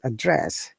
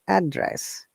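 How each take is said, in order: First: The stress is on the second syllable. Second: The stress is on the first syllable. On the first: It is used as a verb. "for the verb, it is the second syllable" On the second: It is used as a noun. "For noun, our stress is first syllable"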